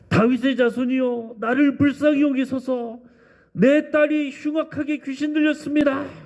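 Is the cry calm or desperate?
desperate. It is cried out desperately and earnestly.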